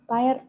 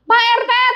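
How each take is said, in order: First: It is called out quietly and timidly. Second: It is called out loudly and urgently. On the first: The caller feels too awkward to wake him. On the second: The caller urgently needs help.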